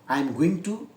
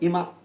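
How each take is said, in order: First: Every word of 'I am going to' is said. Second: The whole phrase is squeezed into 'imma'.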